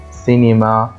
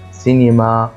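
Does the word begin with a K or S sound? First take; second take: S; S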